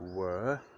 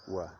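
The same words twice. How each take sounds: First: The vowel is a full, clear vowel. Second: The vowel is reduced to a weak schwa. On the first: "It changes from were, W U R" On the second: "to were"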